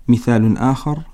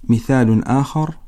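Both takes have the same delivery.

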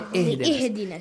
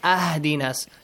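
First: The word begins with an i vowel. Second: The word begins with an a vowel. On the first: The speaker calls it right. "Say ihdinas" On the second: The speaker calls it wrong. "do not say ahdinas"

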